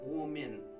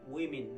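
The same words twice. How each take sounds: First: The vowels are not both E sounds. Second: Both vowels are said as E sounds. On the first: The speaker calls it wrong. "not women" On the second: The speaker calls it right. "you have to go with E and E and it becomes women"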